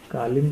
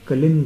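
First: The first vowel is long, like kaa. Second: The first vowel is short, like ka. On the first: The speaker calls it wrong. "कालिंद नहीं" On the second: The speaker calls it right. "कलिंद है"

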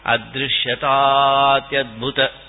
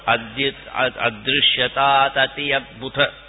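First: The words are joined into one flowing sandhi form. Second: The words are said separately, without sandhi joining. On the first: The speaker calls it right. "Then you won't be able to get it in sandhi" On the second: The speaker calls it wrong. "you can't go adrishyatat ati adbhuta"

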